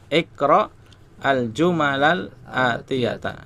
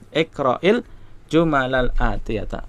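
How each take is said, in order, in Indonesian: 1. Kata pertama tetap terpisah tanpa vokal penyambung. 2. Kata pertama disambung dengan tambahan vokal i. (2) "Kalau mau dibaca sambung, maka sukun yang pertama dikasrohkan"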